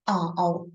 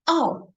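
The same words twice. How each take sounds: First: The pitch dips low and comes back up. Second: The pitch falls sharply from high to low.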